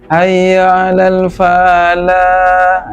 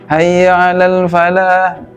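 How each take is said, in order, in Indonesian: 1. Suku kata 'fa' dipanjangkan. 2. Suku kata 'fa' dibaca pendek. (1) "Ini keliru, fa-nya itu panjang" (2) "jangan dipanjangkan"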